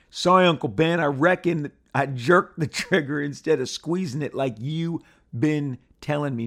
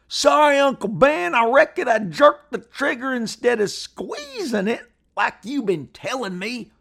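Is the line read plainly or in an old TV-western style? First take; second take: plainly; TV-western style. First: It is read in a plain voice. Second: It is acted like an old TV-western line.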